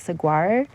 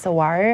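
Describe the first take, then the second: First: The G sound is pronounced. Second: The G sound is silent. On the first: The speaker calls it wrong. "I was saying it incorrectly" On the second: The speaker calls it right. "The G is meant to be silent"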